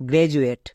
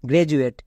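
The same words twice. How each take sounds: The two takes are said the same way.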